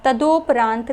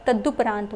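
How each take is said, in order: First: तदोपरांत with an ओ after द, ta-do-paraant; wrong form तदोपरांत, long o in the middle. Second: तदुपरांत with a short उ after द, ta-du-paraant; correct form. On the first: Teacher showing students the wrong form, do sound in तदोपरांत. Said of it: "तदोपरांत नहीं होता है". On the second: Teacher giving students the correct form, short du in तदुपरांत. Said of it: "तदुपरांत होता है". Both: Shown as a demonstration.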